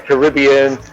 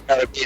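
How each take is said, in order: First: It is said the American English way. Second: It is said the British English way.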